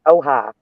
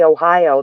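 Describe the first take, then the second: First: It is said the way locals say it. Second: It is said the way outsiders say it. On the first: The speaker calls it right. "They call it Ohio" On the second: The speaker calls it wrong. "they do not say Ohio"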